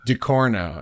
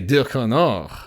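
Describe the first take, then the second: First: The name is said plainly, without French flair. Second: The name is said with an exaggerated French accent. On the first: Others said it this way. The speaker calls it wrong. "That's it's, not very interesting, is it?" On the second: The speaker prefers saying it this way. The speaker calls it right. "if I'm speaking French, I want to say Ducournau"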